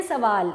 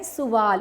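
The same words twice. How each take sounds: First: سوال said the everyday mistaken way; common wrong pronunciation. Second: سوال said with a clear pesh on the first letter; correct pronunciation. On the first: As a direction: show how people wrongly say سوال. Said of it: "ہم بولتے ہیں سوال". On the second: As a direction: model the proper سوال for the class. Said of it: "لیکن صحیح تلفظ کیا ہے؟". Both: Shown as a demonstration.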